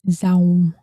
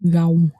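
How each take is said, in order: First: It is said with a northern Vietnamese z sound. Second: It is said with a Mekong Delta g-like sound.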